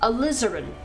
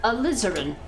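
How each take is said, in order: First: The stress is on the second syllable. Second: The stress is on the second syllable.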